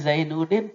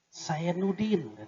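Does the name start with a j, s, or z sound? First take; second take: z; s. First: The name begins with a z sound. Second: The name begins with an s sound.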